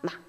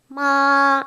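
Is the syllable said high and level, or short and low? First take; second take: short low; high level. First: The syllable is short, light and lower. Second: The syllable is held high and level. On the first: "이렇게 살짝" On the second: "이렇게 좀 높았죠?"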